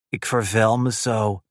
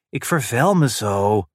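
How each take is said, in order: First: The phrase is spoken softly and unclearly. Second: The phrase is spoken slowly and very clearly.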